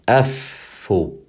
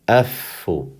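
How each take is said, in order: First: The middle consonant is held long, with a pause. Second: The middle consonant is held long, with a pause.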